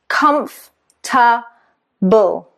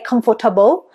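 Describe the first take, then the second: First: The middle syllable is dropped. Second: The middle syllable is pronounced. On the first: The speaker calls it right. "Three syllables" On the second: The speaker calls it wrong. "it sounds funny"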